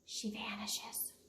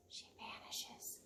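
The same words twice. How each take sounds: First: Soft slow whisper; whispered vanish. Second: Slow breathy whisper; whispered vanish. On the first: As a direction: let the words disappear, breathy and slow. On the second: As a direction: fade the words away to nothing. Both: A narrator's reading. Reading to schoolkids, a slow vanishing whisper.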